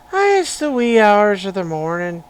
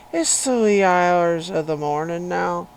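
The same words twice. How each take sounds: First: Loud, hammed-up Irish lilt; Irish accent. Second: Loud, hammed-up Irish brogue; playful Irish lilt at full volume; Irish accent. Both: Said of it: "in an Irish accent".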